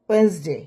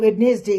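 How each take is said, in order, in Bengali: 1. মাঝের d ধ্বনিটি বাদ দেওয়া হয়। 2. মাঝের d ধ্বনিটি উচ্চারিত হয়।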